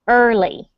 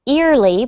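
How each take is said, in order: First: The first vowel does not sound like ear. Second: The first vowel sounds like the word ear. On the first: The speaker calls it right. "it's actually pronounced as Abel pronounced it, more like early" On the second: The speaker calls it wrong. "it looks like the word for ear, so you think it might be early"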